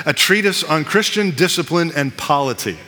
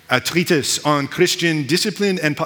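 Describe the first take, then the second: First: Said in the usual way. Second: Badly faked French accent; hint of a put-on French accent. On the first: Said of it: "that's a terrible accent". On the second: Shown as a demonstration. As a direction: attempt a light French accent, not very convincingly. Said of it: "I'll say it with a French accent".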